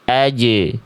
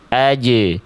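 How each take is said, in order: First: The consonant bounces dry with breath held. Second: The same.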